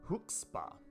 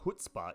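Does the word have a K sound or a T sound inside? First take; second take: K; T. First: The middle consonant is a K sound. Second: The middle consonant is a T sound. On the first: The speaker calls it right. "There's a K in there" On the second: The speaker calls it wrong. "not a T"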